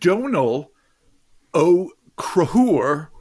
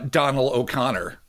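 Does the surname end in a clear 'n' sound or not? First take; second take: no n; n sound. First: The surname has a breathy 'h' sound, no 'n'. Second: The surname has an 'n' sound before the end. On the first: The speaker calls it right. "I hope I'm saying it with just a hint of Gaelic" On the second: The speaker calls it wrong. "That was wrong"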